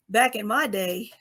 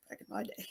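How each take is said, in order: First: Said in the usual way. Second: Much softer, under the breath; muttered aside. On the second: Real, not acted. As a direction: drop it to a private aside to yourself. Self-teasing aside, repeats own phrase.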